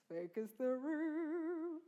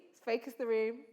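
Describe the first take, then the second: First: Slow, much softer focusing call; slow hush. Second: Said in the usual way. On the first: Shown as a demonstration. Teacher hushing the class before performance, slow and soft. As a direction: draw the room into silence. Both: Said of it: "repeated call".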